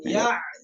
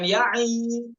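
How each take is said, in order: First: The ya stops without any following vowel. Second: The ya is followed by an added vowel. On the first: The speaker calls it right. "namun ya" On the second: The speaker calls it wrong. "Bukan ya'i"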